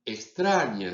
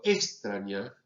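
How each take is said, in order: First: Said in the usual way. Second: Extraña with the stress moved off the usual second syllable; shifted stress. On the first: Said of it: "en lugar de decir". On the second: Shown as a demonstration. Professor showing students a misplaced stress, deliberately wrong. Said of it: "si yo cambio el acento".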